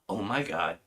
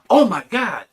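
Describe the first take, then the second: First: It is said flatly, without emotion. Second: It is said with strong, lively emotion. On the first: A cloned voice that cannot show feeling. "It does not emote at all. It'll just go" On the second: A real person reacting with feeling. "you can't be like"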